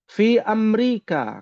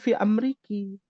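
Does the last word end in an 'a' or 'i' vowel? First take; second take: a; i. First: The last word ends in an 'a' vowel. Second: The last word ends in an 'i' vowel. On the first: The speaker calls it right. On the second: The speaker calls it wrong.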